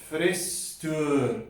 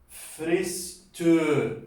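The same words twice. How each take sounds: No difference in how they are said.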